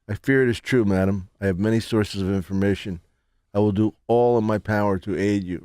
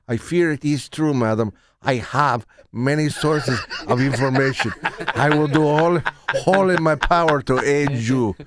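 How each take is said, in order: First: It is said in the speaker's plain accent. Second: It is said in a put-on Spanish accent.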